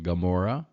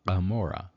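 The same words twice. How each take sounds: First: It begins with an ordinary hard G sound. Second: It begins with a throaty guttural sound.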